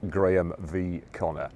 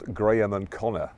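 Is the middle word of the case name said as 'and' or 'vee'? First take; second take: vee; and. First: The middle word is said as 'vee'. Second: The middle word is said as 'and'.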